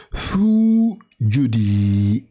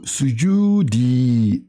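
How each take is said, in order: First: Sujudi said very slowly and clearly; correct reading. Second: Sujudi stretched out, every syllable apart; slow correct reading. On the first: Teacher confirms the good reading of sujudi slowly. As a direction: model sujudi slowly and carefully. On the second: Teacher slowly models sujudi as the right reading. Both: Shown as a demonstration. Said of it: "la bonne lecture, c'est sujudi".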